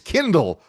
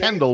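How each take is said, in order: First: The first vowel sounds like 'kin'. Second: The first vowel sounds like 'ken'. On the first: The speaker calls it right. "It's Kindle, which is like spindle only with a K" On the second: The speaker calls it wrong. "Kendall, which is a city by Miami"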